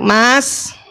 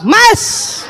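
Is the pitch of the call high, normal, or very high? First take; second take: normal; very high. First: The call is sweet at a normal pitch. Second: The call is pitched extremely high and sharp. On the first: The wife is still calm and gentle. "Yang pertama masih cantik" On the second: The wife is exasperated and glaring. "panggilan ketiga naik tujuh oktav"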